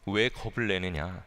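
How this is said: It is said in a sorrowful, pitying tone. The speaker feels sorry for the listeners. "굉장히 안타까워 하시며 하신 말씀 같습니다"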